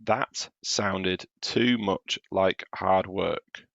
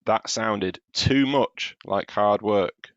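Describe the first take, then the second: First: Very slow, each word separated; very slow check read. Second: Slow, leaning on "too"; slow reread. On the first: Teacher reading each word slowly so pupils spot the error. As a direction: drag out every word to check it. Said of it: "read the words I've actually written". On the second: Teacher rereading slowly to point at the word too. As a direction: lean on "too" as you read it slowly. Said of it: "Can you spot the error?". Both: Shown as a demonstration.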